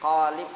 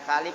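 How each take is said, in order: First: It starts with a deep back q sound. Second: It starts with a light front k sound. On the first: The speaker calls it right. "qaf besar" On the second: The speaker calls it wrong. "bukan kalib ya"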